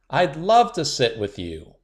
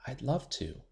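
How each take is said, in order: First: Louder, bold and clear; confident and loud. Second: Soft, shy near-whisper. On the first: Shy girl finally speaking up to classmates, loud. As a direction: say it out proudly. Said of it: "pressed the magic microphone to her lips". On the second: Shy girl whispering to classmates at lunch, soft. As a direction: barely let the words out. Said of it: "Willow whispered". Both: A narrator's reading.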